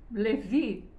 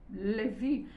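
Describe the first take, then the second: First: The name is pronounced the German way. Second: The same.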